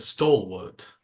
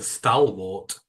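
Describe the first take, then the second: First: "stalwart" with a rounded first vowel; "stalwart" opening like "stall"; corrected pronunciation. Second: "stalwart" with a short a, as in "pal"; slow, mock-puzzled "stalwart", first syllable like "stal"; mimicked mispronunciation. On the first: Shown as a demonstration. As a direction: say "stalwart" as STOL-wart, correcting someone. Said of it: "You mean a stalwart?". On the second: Mocks co-host's pronunciation of stalwart.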